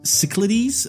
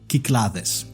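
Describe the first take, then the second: First: It is said with the usual English pronunciation. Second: It is said with a Greek pronunciation.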